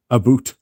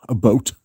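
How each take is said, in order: First: "boot" said with a long oo for about; mock-Canadian vowel, "A boot"; Canadian "aboot". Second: "boat" with a long o for about; the oh version, "A boat"; Canadian "aboat". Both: Shown as a demonstration. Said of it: "We do not say a boot".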